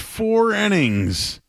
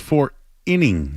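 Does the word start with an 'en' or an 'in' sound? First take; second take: en; in. First: The first vowel sounds like 'en'. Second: The first vowel sounds like 'in'. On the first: The speaker calls it wrong. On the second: The speaker calls it right. "it's four innings"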